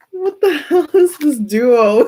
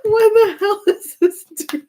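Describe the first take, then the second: First: High, slow, half-crying laugh; words squeezed out between giggles. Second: Much higher, tearful laughing squeak; nearly crying with laughter; laughing hard. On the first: Reader losing it over the odd pair, laughing. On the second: Reader repeating herself, now helpless with laughter. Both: Real, not acted.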